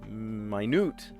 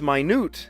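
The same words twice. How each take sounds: First: The stress is on the first syllable. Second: The stress is on the second syllable. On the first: It refers to a unit of time. "Minute rice" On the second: It means very small. "minute is not minute. It's minute. Minute, pocket-sized, compact"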